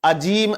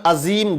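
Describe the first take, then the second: No difference in how they are said.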